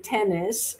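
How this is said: The N is short, like a single consonant.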